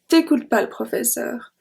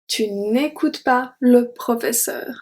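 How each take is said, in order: First: The 'ne' is dropped and 'tu' is shortened. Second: The full negative with 'ne' is pronounced. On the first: Casual speech like a native speaker. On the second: Careful, formal speech.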